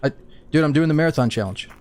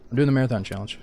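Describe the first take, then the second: First: High, loud, rushed explaining; frantic pleading. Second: Said in the usual way. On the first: Real, not acted. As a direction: plead fast so they hold fire. Explaining himself to armed players.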